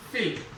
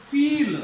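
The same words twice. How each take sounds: First: फिल with a brief lax i; short vowel. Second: फील with a long ee, louder; long vowel. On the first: Teacher giving a short sound example, short vowel. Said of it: "short sound". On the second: Teacher giving a long sound example, long vowel. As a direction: stretch the ee in फील firmly. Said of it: "long sound जा रही है". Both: Shown as a demonstration.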